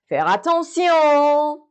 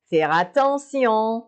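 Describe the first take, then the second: First: Attention called out high, loud and slow; emphatic demo. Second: Said in the usual way. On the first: Shown as a demonstration. Teacher warning the class, calling out attention. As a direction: make them really hear attention. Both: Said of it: "Faire attention یعنی pay attention".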